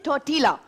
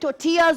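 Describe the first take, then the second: First: The middle consonant is a clear L sound. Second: The middle consonant is silent, with no L. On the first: The speaker calls it wrong. "लोग कहते हैं टोर्टिला" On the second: The speaker calls it right. "इसका pronunciation एल silent होता है"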